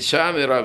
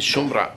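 First: The first vowel is an open a sound. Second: The first vowel is a rounded o sound. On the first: She guarded. "אם השם חמאס רחב, תגיד שמרה" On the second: A woman who guards. "אם השם חמאס חטוב, תגיד שומרה"

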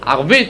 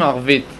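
First: The middle consonant is not a soft v sound. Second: The middle consonant is a soft v sound. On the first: The speaker calls it wrong. "אין להם וות רפויה" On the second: The speaker calls it right. "לא אומרים ערבית"

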